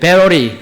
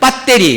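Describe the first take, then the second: First: The word is pronounced carefully and precisely. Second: The word is pronounced in an old-fashioned way. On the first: "전문적으로 발음 잘해야 된다" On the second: "우리 나이 드신 분들 앞에는 배터리 뭐 이렇게 얘기하잖아요"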